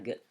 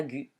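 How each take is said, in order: First: « G » prononcé « gue », sans U, plus doucement; lecture correcte, U muet. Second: « gu » prononcé avec le U sonore; lecture fautive. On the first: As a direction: dis « G » comme « gue », U muet. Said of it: "ça fera G". (« G » en son dur « gue », voix posée) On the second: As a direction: fais entendre le « u » dans « gu ». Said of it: "je ne lis pas gu". (« gu » lu à tort avec voyelle « u ») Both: Shown as a demonstration.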